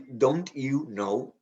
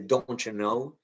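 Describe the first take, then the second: First: The t and y are said separately. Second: The t and y join into ch. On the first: The speaker calls it wrong. "We don't say" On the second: The speaker calls it right. "we say"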